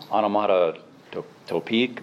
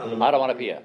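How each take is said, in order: First: Onomatopoeic said slowly, syllable by syllable; careful first try at onomatopoeic. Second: Onomatopoeia said correctly at last, ah-tuh-mah-nuh-PEE-uh; relieved correct onomatopoeia; corrected word. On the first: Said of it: "if I can say this right". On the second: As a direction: land onomatopoeia after the prompt. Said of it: "that's it". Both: Real, not acted.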